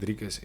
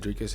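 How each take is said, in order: First: The R is said the South African way. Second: The R is said the American way. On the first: "They don't say the R like we do. So saying Dricus is really hard" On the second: "So they say Dricus, it's fine"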